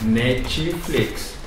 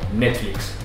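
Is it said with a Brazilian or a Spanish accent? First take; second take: Brazilian; Spanish. First: It is said with a Brazilian Portuguese accent. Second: It is said with a Spanish accent.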